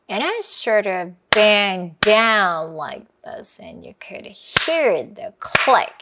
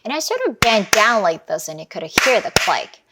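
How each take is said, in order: First: It is said slowly. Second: It is said faster.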